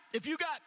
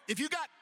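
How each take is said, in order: Both takes have the same delivery.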